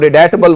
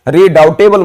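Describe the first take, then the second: First: The second syllable sounds like 'det'. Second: The second syllable sounds like 'dow'. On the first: The speaker calls it right. "उसको रिडेटेबल बोला जाता है" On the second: The speaker calls it wrong. "रीडाउटेबल मत बोलिएगा"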